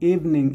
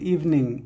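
No difference in how they are said.

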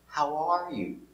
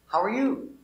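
First: The word 'are' is stressed. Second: The word 'you' is stressed. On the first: "You can put the accent, the stress on the R" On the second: "Or you can put it on you"

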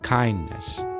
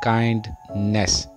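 First: The final 'ness' is said softly and reduced. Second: The final 'ness' is said fully and strongly. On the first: The speaker calls it right. "नेस softly pronounce करना है" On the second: The speaker calls it wrong. "Most of the people मिस pronounce this word as काइंडनेस"

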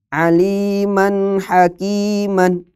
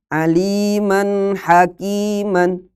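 Both takes have the same delivery.

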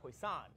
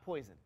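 First: It is said with a French pronunciation. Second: It sounds like the English word poison. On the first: The speaker calls it right. "It's actually French" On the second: The speaker calls it wrong. "It's not poison"

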